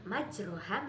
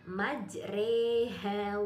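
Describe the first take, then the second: First: The vowel after r is a plain open a. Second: The vowel after r leans toward an e sound. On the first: "dengan bacaan majroha" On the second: "menjadi majreha"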